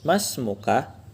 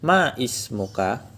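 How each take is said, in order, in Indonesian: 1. Vokal 'ism' dihilangkan, kata-katanya menyatu. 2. Vokal 'ism' dipertahankan, terpisah. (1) "Mas Muka itu sebenarnya dia pakai hamzah wasol" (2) "kalau misalkan nggak pakai hamzah wasol nanti jadinya ma ismuka"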